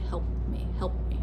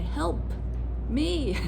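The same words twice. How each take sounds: First: Help me with the P held, not released. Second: Help me with a crisp released P, shouted clear; fully released P. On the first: Teacher showing normal speech, unreleased P in Help. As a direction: hold the P in Help without letting it pop. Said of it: "I would hold on to that P sound". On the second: Teacher shouting Help me across an ocean, released P. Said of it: "I probably would say". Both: Shown as a demonstration.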